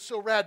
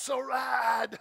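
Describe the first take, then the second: First: It is said in a plain, ordinary way. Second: It is said in a laid-back, drawn-out way. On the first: The speaker calls it wrong. "But you just couldn't say it like that" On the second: The speaker calls it right. "It's like everyone was high all the time"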